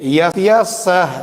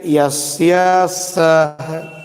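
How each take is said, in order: First: यस्य सह said slowly, clearly; slightly slow repeat of यस्य सह; slow demo. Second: यस्य सह stretched out very slowly; slow teacher demo of यस्य सह. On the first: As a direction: model यस्य सह for the class. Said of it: "देखिए". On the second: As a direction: drag यस्य सह out for children to copy. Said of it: "बस इधर थोड़ा सा ध्यान देना है". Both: Shown as a demonstration.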